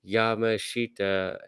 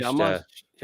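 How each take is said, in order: First: Every syllable is said fully and distinctly. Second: The middle syllables are reduced and mumbled. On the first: The speaker calls it wrong. "here are all the syllables, so I know what to say" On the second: The speaker calls it right. "you hear them say it, ... You could just mumble your way through"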